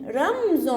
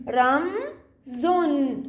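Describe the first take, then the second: First: رمز run together as ramzon; syllables blended. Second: رم, pause, then زن; syllable by syllable. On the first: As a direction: join رم straight into زن. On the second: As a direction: sound out رم and زن as separate held blocks. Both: Shown as a demonstration. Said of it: "بحاول أقرأها أنا دمج".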